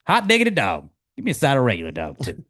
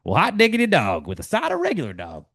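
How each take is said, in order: First: Excited cheer. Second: Higher, excited folksy exclamation; Ted Lasso catchphrase. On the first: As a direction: cheer a great shot. Ted reacting to a shot. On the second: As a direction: whoop it like a delighted coach. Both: Acted.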